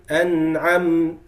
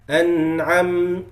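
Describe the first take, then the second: The two takes are said the same way.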